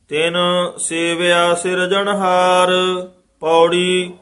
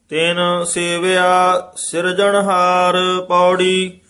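First: A short pause comes before the last word. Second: The last word runs on without a pause. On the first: The speaker calls it right. "ਥੋੜਾ ਜਿਹਾ ਰੁਕ ਕੇ" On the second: The speaker calls it wrong. "ਇਹਨਾਂ ਨਾਲ ਹੀ ਨਹੀਂ ਜੋੜ ਦੇਣਾ"

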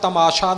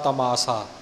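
First: The middle consonant is a sh sound. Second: The middle consonant is an s sound. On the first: The speaker calls it wrong. "ਇੱਥੇ ਵੀ ਆਪਾਂ ਤਮਾਸ਼ਾ ਨਹੀਂ ਬੋਲਣਾ" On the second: The speaker calls it right. "ਇਉਂ ਹੀ ਬੋਲਣਾ ਹੈ"

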